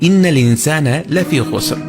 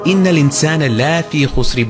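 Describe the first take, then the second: First: The vowel in la is short and clipped. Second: The vowel in la is drawn out long. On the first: The speaker calls it right. "বরং বলি" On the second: The speaker calls it wrong. "বলি না"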